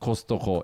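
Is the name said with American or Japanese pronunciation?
Japanese. It is said with Japanese katakana-style pronunciation. The speaker calls it wrong. "Not Costco"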